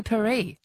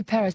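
First: Paris said as "pa-REE"; French pronunciation. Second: Said in the usual way. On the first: Shown as a demonstration. Host queries the caller's choice, Paris as French "pa-REE". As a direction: drop the s in Paris, French style. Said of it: "but should we say Paris?". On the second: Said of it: "You'd say Paris".

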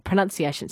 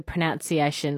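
First: Said in the usual way. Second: "pronunciation" said pro-NOUN-ciation; "pronunciation" with second vowel as in noun; "pronounce" kept in pronunciation. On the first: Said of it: "I should ask Kate about that". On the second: Shown as a demonstration. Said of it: "or the pronunciation, see, I should ask".

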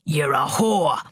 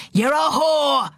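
First: Low, unshouted angry accusation; contained accusation. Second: High, slow shouted accusation; furious shout. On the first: Father accusing his daughter over the table, anger contained. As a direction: accuse her with the anger held in. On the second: Father raging at his silent daughter, furious shout. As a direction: shout it, stretching each word in rage. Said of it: "he shouted". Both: A narrator's reading.

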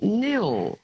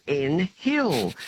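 First: "nil" as one drawn-out syllable, H silent; correct town pronunciation. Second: "N Hill" broken into two words, H sounded; "N Hill" said as "en" plus "hill"; mispronounced town name. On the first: Shown as a demonstration. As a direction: say "nil" slowly with no H. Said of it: "it's pronounced nil". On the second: Retold or imitated. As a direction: imitate the wrong "N Hill", voicing the H. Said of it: "the H is silent".

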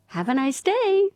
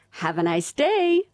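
First: A far higher, exaggerated American accent; hammed-up cheery American shop greeting. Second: Put-on "Have a nice day" in a bright, higher American accent; a cheery American greeting. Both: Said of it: "with an American accent".

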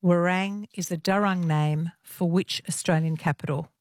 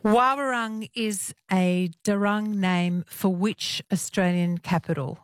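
First: "Warang" said quickly as wuh-RANG, two beats; quick corrected reading of "Warang"; corrected name. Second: "Wawarung" said slowly as WAH-wuh-rung, three beats; careful, slow reading of "Wawarung"; slow first try at the name. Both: Real, not acted. Host rereads the place name.

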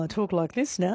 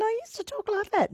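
First: Said in the usual way. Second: Much higher-pitched than usual; exaggerated high-pitched voice; high former voice. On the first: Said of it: "so that it would deepen my voice". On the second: Shown as a demonstration. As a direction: pitch it right up, mocking your old untrained voice.

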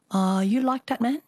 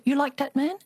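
First: Put-on Chinese accent. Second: Put-on higher Chinese-accented grandmother. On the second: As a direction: imitate a Chinese mother, lighter. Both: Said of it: "I always have to do the Chinese accent".

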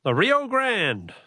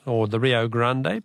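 First: Said in the usual way. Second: "Rio Grande" said the Spanish way, "Grande" ending in a clear "day"; Spanish pronunciation. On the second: Shown as a demonstration. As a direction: pronounce "Grande" as gran-deh, two syllables, Mexican style. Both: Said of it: "that's to give it its Mexican, its Spanish pronunciation".

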